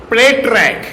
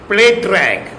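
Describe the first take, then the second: Both takes have the same delivery.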